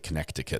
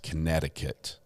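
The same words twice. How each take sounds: First: The middle 'c' sound is pronounced aloud. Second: The middle 'c' sound is left silent. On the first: The speaker calls it wrong. "I like to say Connecticut, but they don't like that" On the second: The speaker calls it right. "Apparently, it's Connecticut. They've got just some extra letters they're just not using"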